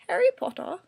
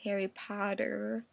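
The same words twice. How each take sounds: First: Imitated British accent, with a crisp t sound. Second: American accent, with the t sounding like d. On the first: "that was a pretty bad impression of a British accent" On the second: "Americans do say Harry Potter like it's like Harry Potter"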